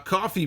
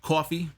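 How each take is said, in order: First: It is said in a plain, neutral accent. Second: It is said in a strong Brooklyn accent.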